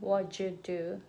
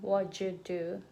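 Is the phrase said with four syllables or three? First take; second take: three; three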